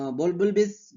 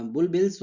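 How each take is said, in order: First: बुलबुलबिस with a stumbled, doubled syllable; slip of the tongue. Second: बुलबिल्स said cleanly as bul-bils; corrected word. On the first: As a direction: trip over बुलबुलबिस before correcting. (बुलबुलबिस की अटकती ग़लत उच्चारण) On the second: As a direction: fix it to बुलबिल्स, plain and clear. (बुलबिल्स का सही उच्चारण) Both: Real, not acted. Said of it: "बुलबिल्स होते हैं जो".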